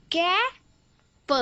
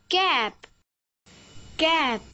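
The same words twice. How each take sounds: First: कै and प said as two separate sounds; phonics-style कै, then a short lone प; sounded out. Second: कै and प joined into one word कैप; कैप blended, closing on the प sound. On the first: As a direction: break it into कै, pause, प. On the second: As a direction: say कैप whole, then repeat it. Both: Shown as a demonstration. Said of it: "पी का उच्चारण है".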